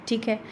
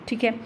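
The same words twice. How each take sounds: No difference in how they are said.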